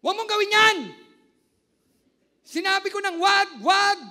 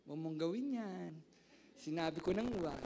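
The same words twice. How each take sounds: First: Yelling in anger, very loud and high; angry shout. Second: Gentle calm version. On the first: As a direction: scream it like a furious parent. Pastor acting angry shout. (galit na sigaw) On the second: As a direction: say it gently, without raising the voice. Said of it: "Pag nagagalit ka ba, banayad ka?". (mahinahong pagsasabi) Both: Shown as a demonstration.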